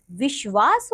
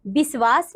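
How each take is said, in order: First: Said in the usual way. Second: "विश्वास" with s for sh, "visvaas"; wrong pronunciation. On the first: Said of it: "विश्वास होता है". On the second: Shown as a demonstration. Teacher showing pupils the error, "विश्वास" mispronounced as "visvaas". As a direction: replace the sh in "विश्वास" with a plain s. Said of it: "नहीं".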